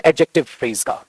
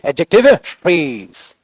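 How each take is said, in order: First: Said in the usual way. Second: "adjective phrase" drawn out very slowly, each word stressed; slow stressed correction. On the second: Shown as a demonstration. Teacher correcting students, drawing out "adjective phrase" very slowly. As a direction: stretch out "adjective phrase" to drive it home. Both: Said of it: "खाली adjective नहीं बोलेंगे".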